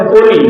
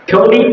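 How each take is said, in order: First: কোহলি with a plain, unaspirated K; Bengali-style hard K. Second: কোহলি opening on a puffed KH; English aspirated K. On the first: Teacher showing students their habit, plain Bengali K in কোহলি. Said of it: "যেগুলোকে ক দিয়ে উচ্চারণ করো". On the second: Teacher showing how English speakers say it, aspirated KH in কোহলি. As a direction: puff the K of কোহলি into KH. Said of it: "তাহলে কিভাবে বলবে?". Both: Shown as a demonstration.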